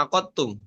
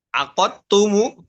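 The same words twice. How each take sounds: First: AQATTUM ending on a closed m; variant reading. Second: Said in the usual way. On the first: Shown as a demonstration. Teacher showing how it is read, closed ending on AQATTUM. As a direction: say "aqattum" without a final u. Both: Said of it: "dibaca aqattum".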